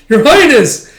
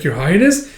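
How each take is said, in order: First: Very high, loud exclamation; alarmed cry. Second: Slightly raised, questioning call; concerned question. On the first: Companion seeing Yona fall over, alarmed. Alarmed second call as she falls. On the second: Companion checking on fallen Yona, concerned. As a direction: check on her with a rising tone. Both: Retold or imitated.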